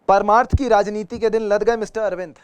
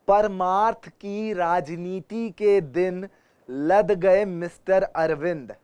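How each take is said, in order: First: The sentence is spoken at a normal pace. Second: The sentence is spoken slowly and deliberately.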